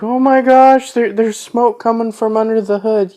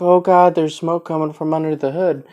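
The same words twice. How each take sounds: First: High, loud panicked imitation; freaked out. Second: A touch of imitated panic, a bit higher; milder freaked out. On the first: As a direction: squeal it like a panicking nerd. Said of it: "he's freaked out". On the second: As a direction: retell the panic more lightly. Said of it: "he's freaking out about it".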